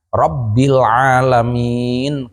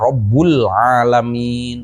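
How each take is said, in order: First: The first word ends with an i vowel. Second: The first word ends with a u vowel. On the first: The speaker calls it right. "kuduna Rabbil alamin" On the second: The speaker calls it wrong. "dibaca Rabbul alamin"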